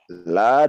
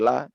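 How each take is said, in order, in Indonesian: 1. Vokalnya diucapkan panjang, dua ketukan. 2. Vokalnya diucapkan pendek, satu ketukan. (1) "La dua harokat" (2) "kalau kita pendekkan sungguh-sungguh akan"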